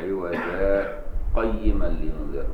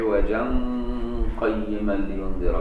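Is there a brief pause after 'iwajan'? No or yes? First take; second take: yes; no. First: A brief breathless pause comes after the first word. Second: The words run together without a pause, nasal blended. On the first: This is one reciter's reading of the verse. "سكتة بغير نفس عند الوصل" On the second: This is how the other reciters read the verse. "بالإخفاء"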